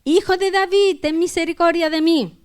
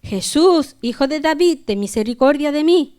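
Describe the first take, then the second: First: Insistent plea, pitched high; crying out harder. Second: Raised, higher plea read aloud; crying out. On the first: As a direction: raise the voice right up to beg for mercy. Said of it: "él clamaba mucho más". (clamando con más insistencia, voz aguda) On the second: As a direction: call out to Jesus for mercy as a reader. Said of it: "Entonces dio voces diciendo". (dando voces, súplica en tono alzado) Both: A narrator's reading.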